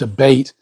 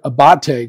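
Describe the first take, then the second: First: It is pronounced like the word abatement. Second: It is pronounced in a French-sounding way. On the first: "you look at like tax abatements, it's ABATE" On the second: "which I guess is the French version"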